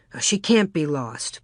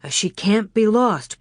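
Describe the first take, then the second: First: Said in the usual way. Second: A touch firmer, slightly raised; insisting. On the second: A narrator's reading. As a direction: say it again, more firmly. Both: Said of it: "Pa insisted".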